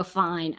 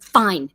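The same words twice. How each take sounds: First: Low-key, softer "fine"; women's "fine". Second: Firm, closed-off "fine"; man's "fine". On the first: Acting how women say it to friends, softly loaded "fine". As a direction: drop it softly, hinting something is wrong. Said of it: "as women, we, if we go". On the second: Acting a man who won't talk about it, firm "fine". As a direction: say it firmly to end the discussion. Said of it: "But with a man, it's like". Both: Retold or imitated.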